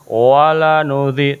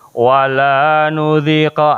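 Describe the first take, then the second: First: The vowel in 'la' is held short. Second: The vowel in 'la' is drawn out long. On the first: We will surely make them taste it. The speaker calls it right. "La-nya harus dibaca pendek" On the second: We will not make them taste it. The speaker calls it wrong. "tidak boleh dibaca begini misal"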